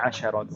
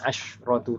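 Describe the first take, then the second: First: The sh sound is followed by a short a. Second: The sh sound has no vowel after it. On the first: The speaker calls it right. "tapi asyaratu" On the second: The speaker calls it wrong. "Jangan dibacanya asyratu"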